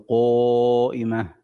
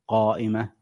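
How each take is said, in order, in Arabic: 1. المدّ بعد q يُنطق مستديرًا، مثل o. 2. المدّ بعد q يُنطق عاديًا، مثل a.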